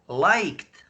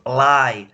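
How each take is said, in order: First: "liked" with the final k-t sounded; corrected pronunciation. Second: "lie" said with an open ending, no final consonants; contrasted pronunciation. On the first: Him correcting a mishearing, "liked" with clear final consonants. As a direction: say "liked" distinctly, closing on k-t. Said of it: "Not lie, liked". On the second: Him correcting a mishearing, "lie" without a k sound. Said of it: "Sorry if I, I pronounce". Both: Shown as a demonstration.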